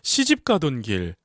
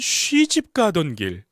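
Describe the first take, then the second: First: The first syllable is a plain 'si' sound. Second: The first syllable is rounded, like 'swi'. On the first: "그냥 시집이 아니에요" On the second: "약간 쉬집 가던 길"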